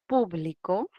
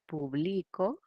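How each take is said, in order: First: The stress is on the first syllable. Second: The stress is on the middle syllable.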